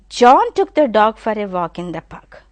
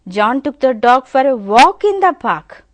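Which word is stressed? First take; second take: John; walk. First: The stress falls on the word John. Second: The stress falls on the word walk. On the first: It was John who took the dog. "immediately the stress I am giving on John" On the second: It was a walk he took it for. "if you give a stress on walk"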